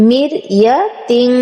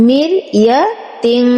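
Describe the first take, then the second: The two takes are said the same way.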